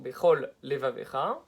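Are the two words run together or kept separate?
separate. The two words are kept clearly apart. The speaker calls it right.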